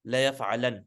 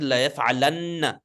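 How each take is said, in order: First: La yaf'alan ending short on a single n, no final vowel; light, no shadda. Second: La yaf'alanna with a held double n and final a; with a shadda. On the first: Teacher shows now it's light, la yaf'alan ending on plain n. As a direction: close la yaf'alan on a simple n. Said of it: "Now it's light". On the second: Teacher shows previous heavy form, la yaf'alanna with doubled n. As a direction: lean on the nn in la yaf'alanna. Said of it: "with a shadda". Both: Shown as a demonstration.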